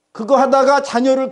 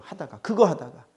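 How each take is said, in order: First: "하다가" hit higher and louder; emphatic repeat. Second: Said under the breath, much softer; a quiet, dropping aside; softer repeat. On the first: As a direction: push the repeat up, building force. Preacher repeats phrase with force. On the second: Preacher repeats phrase quietly. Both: Real, not acted.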